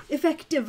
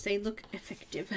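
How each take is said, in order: First: Effective said higher and louder, falling at the end; stress on Effective. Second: Said in the usual way. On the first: Shown as a demonstration. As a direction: punch the word Effective, then let it drop.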